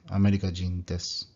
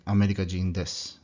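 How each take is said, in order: Both takes have the same delivery.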